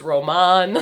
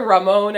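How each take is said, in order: First: "Roman" as roh-MAHN; Spanish-style pronunciation. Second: "Ramon" as rah-MOHN; Spanish pronunciation. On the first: Guest comparing the two names, "Roman" as roh-MAHN. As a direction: say "Roman" with an open AH in the last syllable. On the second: Guest comparing the two names, "Ramon" as rah-MOHN. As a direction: say "Ramon" with a long OH in the last syllable. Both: Shown as a demonstration. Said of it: "was better, Ramon or Roman".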